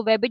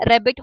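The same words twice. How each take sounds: First: वेबिट with W replacing the R of rabbit; child's gliding error. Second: Said in the usual way. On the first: Retold or imitated. Lecturer shows a child's gliding, वेबिट with W for R. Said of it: "gliding है". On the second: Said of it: "उसको वेबिट बोलना".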